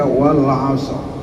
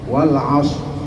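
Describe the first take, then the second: The two takes are said the same way.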